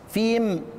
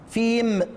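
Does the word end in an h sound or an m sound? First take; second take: m; m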